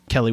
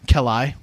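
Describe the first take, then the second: First: Said in the usual way. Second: "Kelly" said as "kell-EYE"; ending in eye. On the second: Real, not acted. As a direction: turn the end of "Kelly" into a long I, like "eye". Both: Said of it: "Kelly with an I".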